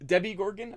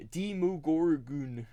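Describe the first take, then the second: First: Debbie Gorgon, mock-mangled Demogorgon; mocking Debbie Gorgon misreading; wrong pronunciation. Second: Demogorgon said slowly and clearly; slow careful Demogorgon; correct pronunciation. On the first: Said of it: "he has it all messed up". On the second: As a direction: spell out Demogorgon carefully, each syllable. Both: Shown as a demonstration.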